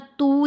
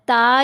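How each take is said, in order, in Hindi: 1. स्वर सामान्य लंबा 'oo' है। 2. स्वर सामान्य लंबा 'aa' है। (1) "ता या तू नहीं पढ़ना" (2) "ता या तू नहीं पढ़ना"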